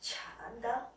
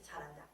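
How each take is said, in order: First: It is said with a mocking, sarcastic tone. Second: It is said flatly and bluntly.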